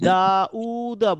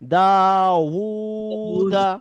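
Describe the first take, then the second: First: The middle vowel breaks with a glottal catch. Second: The middle sound is a full, thick w. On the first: The speaker calls it wrong. "দা উ উ হবে না, তাহলে এটা হামজা হয়ে যায়।" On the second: The speaker calls it right. "ওয়াওটা একটু মোটা করে ধ্বনি দিতে হয়।"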